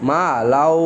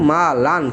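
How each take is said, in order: First: The n sound is merged into the following w. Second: The n sound is pronounced clearly before w. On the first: "এখানে কি ঈদগাম হয়েছে" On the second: "ওয়ার উপর যদি তাসদিদ না থাকতো তাহলে আমরা এখানে পড়তাম মা লান"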